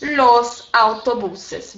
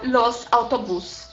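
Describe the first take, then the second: First: "los autobuses" very slow, with added -es; correct plural demo. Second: "los autobús" slow, ending on stressed -bús; incorrect plural demo. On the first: Teacher showing students the correct plural, slow demonstration. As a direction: draw out "los autobuses", sounding the final -ses. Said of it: "e no plural eu falo". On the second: Teacher showing students the wrong plural, slow demonstration. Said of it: "estaria errado". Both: Shown as a demonstration.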